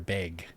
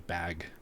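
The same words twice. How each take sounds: First: The word has a Midwestern vowel sound. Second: The word has a General American vowel sound. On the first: "I hear a lot of Midwestern accents" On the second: "the rest of us would say bag"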